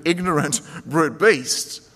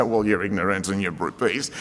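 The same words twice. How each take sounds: First: Said in the usual way. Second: A lower, blunt put-down, lightly voiced; a hint of a scolding friend; mock blunt insult. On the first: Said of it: "he calls himself a senseless or stupid". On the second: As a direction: play the tactless counsellor, half in jest. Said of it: "you don't say".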